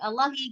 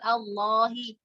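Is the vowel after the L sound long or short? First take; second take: short; long. First: The vowel after the L is cut short. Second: The vowel after the L is held long. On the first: The speaker calls it wrong. "tapi Allahi gitu ya. Jadi jadi pendek, jadi jadi cepat" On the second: The speaker calls it right. "bukan Allahi"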